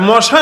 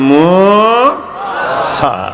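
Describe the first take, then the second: First: The first vowel is short and clipped. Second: The first vowel is drawn out long. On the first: It sounds like the word for mosquito. The speaker calls it wrong. "আরে মশা না, মশা তো রক্ত খায়" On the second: It is the prophet's name. The speaker calls it right. "মিমের সাথে ওয়াও আছে, টান দিবেন"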